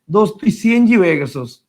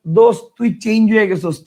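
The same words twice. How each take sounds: First: চেঞ্জ read literally as সিএনজি, letter names C-N-G; misread texting spelling. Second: Said in the usual way. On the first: Shown as a demonstration. Teacher mocks students' Banglish texts, reading চেঞ্জ literally as সিএনজি. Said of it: "সিএনজি মানে". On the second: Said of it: "চেঞ্জ লেখেন".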